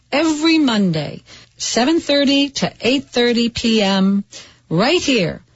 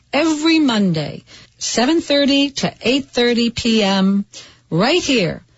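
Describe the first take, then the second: No difference in how they are said.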